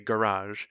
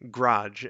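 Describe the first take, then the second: First: The word is said with both syllables clearly. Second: The word is squeezed into one quick syllable. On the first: The speaker calls it right. "started forcing myself to say garage" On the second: The speaker calls it wrong. "say our words so fast that uh, they became grudge"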